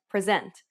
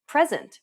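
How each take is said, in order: First: "present" as the verb, pre-SENT; second-syllable stress. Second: "present" as the noun, PRE-sent; first-syllable stress. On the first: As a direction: hit the last syllable of "present". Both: Shown as a demonstration. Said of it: "Consider some examples in English".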